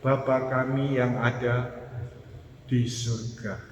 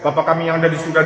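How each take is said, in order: First: It is said slowly, with calm, deliberate pacing. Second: It is said quickly, rushing like an express train. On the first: The words are prayed with full awareness. The speaker calls it right. "Tapi coba sadari sungguh" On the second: The words are recited without attention. The speaker calls it wrong. "jangan ritme kereta api ekspres ya"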